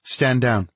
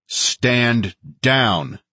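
First: Lightly voiced female officer, higher pitch; order to her team. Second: Firm, higher-pitched repeated order; edge in the voice. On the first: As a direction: give the team a quick, contained order. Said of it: "To her team, she said". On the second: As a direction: keep a hard edge on each word. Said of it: "keeping the edge in my voice". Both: A narrator's reading.

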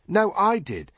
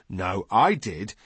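First: Put-on high, indignant boy's retort; squabbling boy. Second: Slower retort leaning on I; squabbling retort. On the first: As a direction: contradict him in a high boy's voice. Boys squabble over who was first. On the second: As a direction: contradict him slowly, stressing your own claim. Other boy retorts in squabble. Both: A narrator's reading.

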